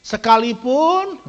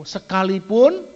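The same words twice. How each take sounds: First: Sekalipun slow, loud, drawn out; emphatic even though. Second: Sekalipun drawn out slow and loud; emphatic even though. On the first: Preacher repeating Sekalipun slowly and loudly. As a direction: lean hard on Sekalipun. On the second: Preacher stressing sekalipun to the congregation, slow and loud. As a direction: stretch sekalipun for weight. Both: Real, not acted.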